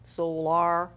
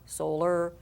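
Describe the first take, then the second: First: The last syllable has a full 'ar' sound. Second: The last syllable has a weak 'er' sound. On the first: The speaker calls it wrong. "you would try R" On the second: The speaker calls it right. "flex a little bit, make it sound the way you want it to sound"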